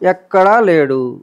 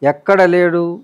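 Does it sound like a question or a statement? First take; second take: statement; question. First: It is said with a flat statement tune. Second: It is said with a questioning tune. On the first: It says God is present nowhere. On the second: It asks where God is not present.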